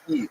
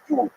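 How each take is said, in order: First: It starts directly on the vowel, no y. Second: It has a u vowel instead of i. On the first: "if you lived in Eastern Ukraine, you'd say Yid, like Yiddish, like just without the Y" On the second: "If you uh, lived in Western Germany, you would say Jud"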